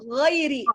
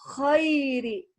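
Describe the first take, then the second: First: The first sound is voiced, with no breath. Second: The first sound is breathy, with air released. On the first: The speaker calls it right. "gha itu dia enggak boleh keluar nafas" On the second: The speaker calls it wrong. "kita keluarkan nafas, dia akan berubah menjadi huruf kha"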